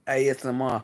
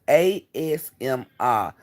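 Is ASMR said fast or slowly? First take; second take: fast; slowly. First: The letters are run together quickly. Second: The letters are said slowly and separately. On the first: "they say I be saying it too fast" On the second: "I'm not saying it like that. That sound weird"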